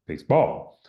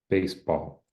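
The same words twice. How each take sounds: First: The stress falls on the second syllable only. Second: Both syllables carry equal stress. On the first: "they're having a difficulty, you know, kind of modulating where the stress should be" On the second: "they don't have any different stress there"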